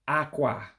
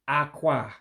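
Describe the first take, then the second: Both takes have the same delivery.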